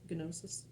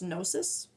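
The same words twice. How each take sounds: First: The initial G is pronounced. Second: The initial G is silent. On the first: "We used to say them that way with the G" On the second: "I'm pretty sure I'm not supposed to pronounce the, the G"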